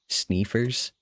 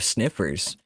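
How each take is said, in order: First: The first vowel is a long 'ee' sound. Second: The first vowel is a short 'i' sound.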